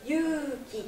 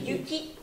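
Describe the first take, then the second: First: Yuki with the u stretched, three beats; Yuuki, hold the u one extra beat; Yuki, long u held over three beats; long vowel. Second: Yuki said short in two beats; Yuki, two quick even beats; model word. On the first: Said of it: "il y a trois temps". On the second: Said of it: "Donc il y a deux temps". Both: Shown as a demonstration.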